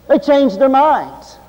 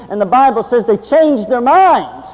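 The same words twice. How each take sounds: First: "They changed their minds" drawn out slowly, each word weighted; preacher's slow emphatic echo; slow emphatic repeat. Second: Said in the usual way. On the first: Shown as a demonstration. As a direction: hammer the point home slowly.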